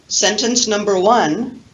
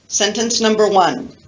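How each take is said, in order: No difference in how they are said.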